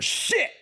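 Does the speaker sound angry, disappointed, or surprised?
angry. It sounds angry. Something made you mad. "Now you're angry"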